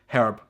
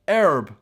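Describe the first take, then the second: First: The word starts with an h sound. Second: The word starts without an h sound. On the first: This is how it is said here. "We say herb" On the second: This is how Americans say it. "You do not pronounce the H. You pronounce it herb"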